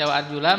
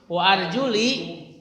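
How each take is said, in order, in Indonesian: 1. Kata itu diakhiri dengan vokal 'a'. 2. Kata itu diakhiri dengan vokal 'i'. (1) "mansub atop kepada yang dicuci" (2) "kalau misalnya dibacanya majrur"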